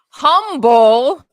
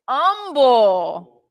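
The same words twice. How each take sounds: First: The word begins with an audible H sound. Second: The word begins without any H sound. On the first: The speaker calls it wrong. "It's not humble" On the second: The speaker calls it right. "You leave out the, you leave out the H"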